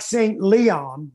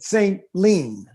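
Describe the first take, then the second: First: The second word has two syllables, Le-on. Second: The second word has one syllable, Lean. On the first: This is how the spelling suggests it. "It looks like Saint Leon" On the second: This is how local people say it. "if you're from there, they pronounce it Saint Lean"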